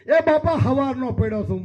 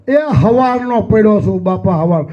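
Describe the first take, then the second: First: Said in the usual way. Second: હવારનો leaned on hard and loud, then હવાર repeated alone; stress on morning. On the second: Shown as a demonstration. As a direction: punch હવારનો and echo હવાર. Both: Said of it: "શબ્દ પર ભાર દેજો".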